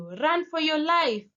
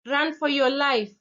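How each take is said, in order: First: High urgent shout; shouted warning. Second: Urgent shouted command, pitched up; shouted warning. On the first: Stranger shouting at you in the dark, high urgent yell. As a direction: cry it out with intensity. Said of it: "just randomly shouts at you". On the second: Driver shouting at a walker to flee, loud and urgent. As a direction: yell it to save someone. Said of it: "whoever is driving the car shouts to you". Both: Retold or imitated.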